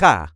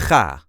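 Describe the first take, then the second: First: The throaty g sound is very brief. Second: The throaty g sound is somewhat shortened. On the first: "Now make it even shorter" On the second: "Now shorten that clearing your throat sound"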